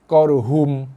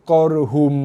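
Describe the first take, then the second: Both takes have the same delivery.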